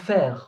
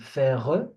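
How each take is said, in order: First: The word stops on the r, no final vowel. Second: A vowel sound is added after the final r. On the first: The speaker calls it right. "I'm saying faire. There is no e sound" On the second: The speaker calls it wrong. "I'm not saying faire"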